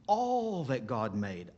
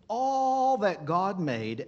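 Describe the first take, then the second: First: Said in the usual way. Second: Louder and higher, "all that God made" drawn out slowly; slow down and swell on "all that God made"; emphatic repeat. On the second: Real, not acted. Pastor repeating a phrase, louder and slower for emphasis.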